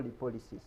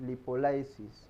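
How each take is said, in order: First: Lipolysis with a short i, not "lie"; second variant of lipolysis, short-i sound; alternative pronunciation. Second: Lipolysis said as lipo-LYE-sis; first variant of lipolysis, lipo-LYE-sis; alternative pronunciation. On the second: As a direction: say "lipolysis" with a long "lie" in it. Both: Shown as a demonstration. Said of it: "depending on the pronunciation".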